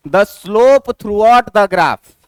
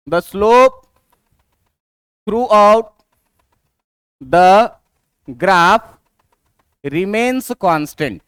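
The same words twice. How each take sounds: First: The whole phrase in one measured, connected go; read out whole. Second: Word by word, with long pauses between; slow dictation. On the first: Teacher reading the rule for a straight line, read out whole. Teacher first reads out the definition. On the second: Teacher giving students the rule for straight lines, slow dictation. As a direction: dictate it slowly in small chunks, leaving time to write. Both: Shown as a demonstration.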